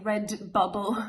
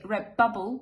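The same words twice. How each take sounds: First: The d of red is clearly pronounced. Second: The d of red sounds like a b. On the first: "instead of saying red bubble" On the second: "the d is transformed into a b"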